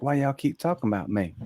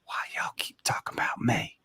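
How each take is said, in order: First: Lightly voiced little Southern girl, questioning; a ghost girl asks why they keep talking about her, cute. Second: Put-on soft voiceless child's whisper; a ghost girl asks the chatty group in a whisper; eerie whisper. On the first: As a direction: ask it like a cute curious kid. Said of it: "it was a cute voice". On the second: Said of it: "clear as day in a whisper".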